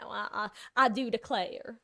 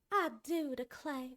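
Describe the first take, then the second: First: Said in the usual way. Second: Slow, higher Southern cowboy drawl on "I do declare"; Southern Belle phrase, cowboy accent. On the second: Shown as a demonstration. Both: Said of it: "Southern Belle phrases with the more cowboy-esque accent".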